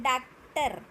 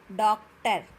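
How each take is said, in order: First: डॉक्टर said as daak-tar with open aa; mispronunciation example. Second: डॉक्टर loud, with rounded o; correct pronunciation model. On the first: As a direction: loudly mimic the wrong daak-tar for डॉक्टर. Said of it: "ऐसे नहीं बोलना". (डॉक्टर को डाक्टर की तरह) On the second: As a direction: punch out dok-ter in डॉक्टर. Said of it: "क्या बोलना है?". (डॉक्टर, गोल ऑ, ज़ोर से) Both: Shown as a demonstration.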